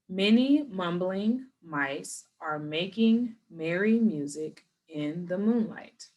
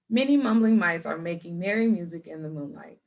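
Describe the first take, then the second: First: It is said at a slow pace. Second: It is said at a fast pace. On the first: "we do want to start off slow" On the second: "I'm going to say it faster"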